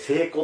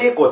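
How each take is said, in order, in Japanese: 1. 「聖子」は関西のアクセントです。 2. 「聖子」は標準語のアクセントです。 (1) "聖子って言いますよ" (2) "聖子じゃなくて"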